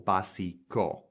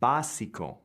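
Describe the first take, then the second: First: The stress is on a later syllable. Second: The stress is on the first syllable. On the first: The speaker calls it wrong. "or básico" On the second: The speaker calls it right. "So it's básico"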